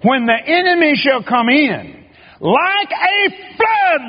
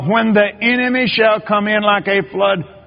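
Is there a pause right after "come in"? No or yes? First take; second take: yes; no. First: There is a pause right after "come in." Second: It runs on without a pause after "come in."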